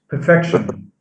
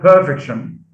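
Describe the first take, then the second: First: The stress is on the second syllable. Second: The stress is on the first syllable. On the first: The speaker calls it right. "stress is shifted from the first syllable to the second" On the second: The speaker calls it wrong. "So it's not perfection"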